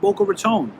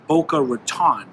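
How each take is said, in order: First: The last vowel is a long o sound. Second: The last vowel is a short o sound. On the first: This is how local people say it. "people here call it Boca Raton" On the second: This follows the spelling. "the way it's spelled, it should be pronounced Boca Raton"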